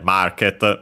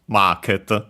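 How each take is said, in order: First: It is said with an English R sound. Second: It has a long vowel and doubled T sound. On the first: "market becomes" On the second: "the vowel with uh, longer"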